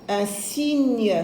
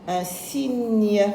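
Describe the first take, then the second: No difference in how they are said.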